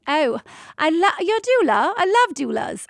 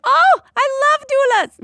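First: High, gushing London English; British accent. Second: High, loud, delighted exclamation; gushing, failed British accent. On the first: London anesthesiologist delighted to meet a doula, British accent. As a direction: greet them delightedly in a put-on British accent. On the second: Anesthesiologist greeting a doula, gushing excitedly. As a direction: gush like a thrilled fan, accent missed. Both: Acted. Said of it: "that wasn't a British accent".

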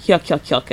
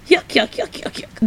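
First: "Yuck, yuck, yuck" said plainly, level pitch; just report the laugh in a normal voice; "Yuck" repeated with no lift; flat yuck laugh. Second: High yuck yuck yuck cackle, fading to breath; the Wiz laughing in their faces, high and fading; mock Wiz laugh. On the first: Retold or imitated. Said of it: "that's what he says". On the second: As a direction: imitate the Wiz's mocking laugh, pitched up. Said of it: "just laughs in their face".

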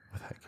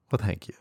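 First: Very quiet whispered echo; whispered thanks. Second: Said in the usual way. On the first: Real, not acted. Host repeats thanks after praise of his metaphor, whispered. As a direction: whisper it under your breath.

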